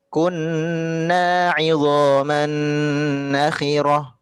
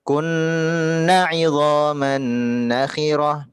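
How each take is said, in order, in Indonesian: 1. Vokal pada kunna dibaca panjang. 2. Vokal pada kunna dibaca pendek. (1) "seharusnya dipanjangkan dua harokat" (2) "Bunda tadi kata kunnanya dipendekkan"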